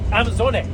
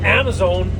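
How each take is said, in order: First: It is said the German way, with an added ending. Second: It is said the American way, like Amazon. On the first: The speaker calls it right. "that German guy, he was, how did he pronounce it?" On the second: The speaker calls it wrong. "we pronounce it Amazon"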